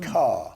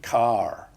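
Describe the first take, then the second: First: The final R is not pronounced. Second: The final R is clearly pronounced. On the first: This is how people say it today. "People would say ... and car" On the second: This is how it was said in earlier times. "in those days, it would have been heart and car"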